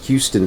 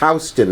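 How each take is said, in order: First: It is pronounced the standard, expected way. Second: It is pronounced the local New York way. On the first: This is how outsiders expect it to sound. The speaker calls it wrong. "not Houston Street" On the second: This is how the street's locals say it. The speaker calls it right. "It's Houston"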